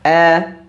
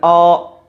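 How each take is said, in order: First: The vowel sounds thin and light, like a. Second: The vowel sounds thick and dark, like o. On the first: The speaker calls it right. "dibaca dengan terkik tipis" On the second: The speaker calls it wrong. "tidak dibaca dengan O"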